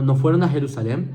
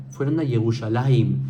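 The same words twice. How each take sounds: First: Said in the usual way. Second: "Yerushalayim" said in Hebrew form, lower; mock-Hebraized "Yerushalayim", pitch dropped; Hebrew name. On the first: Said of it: "No, no, no". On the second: Shown as a demonstration. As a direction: give "Yerushalayim" its Hebrew sounds. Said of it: "Son cosas distintas".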